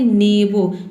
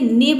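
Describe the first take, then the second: First: The word ends with a lengthened vowel sound. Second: The word ends abruptly on a b sound. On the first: The speaker calls it right. "Last वाला जो letter बचेगा उसको थोड़ा लंबा बोलना है" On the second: The speaker calls it wrong. "नेब नहीं आपको बोलते ना"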